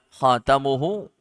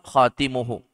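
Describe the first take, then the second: First: The vowel after the t is 'a'. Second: The vowel after the t is 'i'. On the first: "boleh di fathah ta'nya" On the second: "boleh dibaca dengan kasrah"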